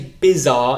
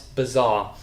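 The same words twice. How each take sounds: First: The first vowel sounds like 'eye'. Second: The first vowel is a weak schwa. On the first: The speaker calls it wrong. "don't say bizarre" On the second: The speaker calls it right. "it's bizarre"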